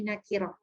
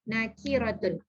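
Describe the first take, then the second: First: The word ends with a short h sound. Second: The word ends with a full tun syllable. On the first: The reader stops on this word. "bila kita wakaf kan jadi nakirah" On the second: The word is read in connected speech. "Jangan panjangkan"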